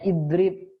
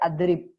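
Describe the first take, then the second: First: The word begins with an i vowel. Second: The word begins with an a vowel. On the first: The speaker calls it right. "Misalnya idrib" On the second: The speaker calls it wrong. "jangan dibaca adrib"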